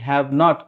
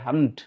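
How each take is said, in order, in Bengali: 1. দুটি আলাদা শব্দ, মাঝে একটু ফাঁক রেখে। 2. একটি সংকুচিত শব্দ, কোনো ফাঁক ছাড়া। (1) "আমরা বলি" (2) "ওরা বলে"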